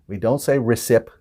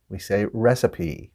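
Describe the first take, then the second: First: The final E sound is left silent. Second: The final E sound is pronounced. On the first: The speaker calls it wrong. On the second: The speaker calls it right. "in words we pronounce the E, ... In this case, we do"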